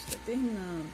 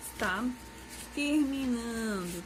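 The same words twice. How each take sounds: First: Said in the usual way. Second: Slow, stretched "está terminando" with a pause before "terminando"; stretching "terminando" at a slow pace; drawn-out reassurance. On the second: Shown as a demonstration. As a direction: draw out "terminando" slowly to soothe the class.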